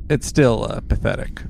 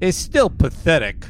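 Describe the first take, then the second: First: It is said in the speaker's ordinary accent. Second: It is said in a put-on New York accent.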